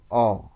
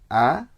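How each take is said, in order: First: The vowel is heavy and thick, toward o. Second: The vowel is light and thin, like a. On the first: "kalau tebal" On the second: "a yang tipis"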